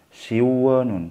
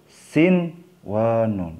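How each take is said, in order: First: The n sound is merged away before w. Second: The n sound is pronounced clearly before w. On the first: The speaker calls it wrong. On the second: The speaker calls it right. "Yang benar harus jelas"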